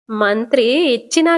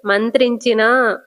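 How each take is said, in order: First: "మంత్రి ఇచ్చినా" split into two words; misheard as two words. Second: "మంత్రించినా" slowly, as one joined word; corrected as one word. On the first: Prabhavati repeats Kamakshi's mishearing, "మంత్రి ఇచ్చినా" as two words. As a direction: say "మంత్రి", then a separate "ఇచ్చినా". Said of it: "అదే మంత్రి ఇచ్చినా అని అన్నావు కదా". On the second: Prabhavati corrects Kamakshi, slow joined-up "మంత్రించినా". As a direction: spell out "మంత్రించినా" slowly without a break. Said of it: "మంత్రి ఇచ్చినా కాదు Kamakshi". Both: Retold or imitated.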